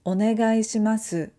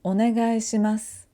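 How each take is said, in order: First: "onegai shimasu" with the final u voiced clearly; the careful version with every vowel; full final su. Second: "onegai shimasu" ending in a bare s, u silent; voiceless final u. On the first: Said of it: "instead of saying onegai shimasu". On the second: Teacher showing students the natural ending, u voiceless. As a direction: let the last u vanish. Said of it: "we say". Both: Shown as a demonstration.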